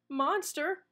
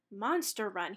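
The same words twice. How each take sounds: First: Rising startled question; alarmed cry. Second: Said in the usual way. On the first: A narrator's reading. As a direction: gasp out the word Monster. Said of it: "he cried". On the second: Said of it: "he read".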